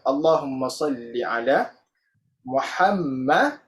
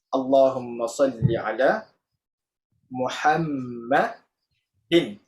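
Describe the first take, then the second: First: The name ends on a bare d sound. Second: The name ends with an added in sound. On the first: "biasa Muhammad je" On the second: "kalau kita tengok baris"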